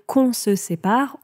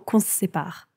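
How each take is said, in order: First: The word se keeps its vowel clearly. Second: The word se shrinks to a bare s sound. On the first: "au lieu de dire" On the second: "quand on parle rapidement, on dit tout simplement ... So it's a hard S"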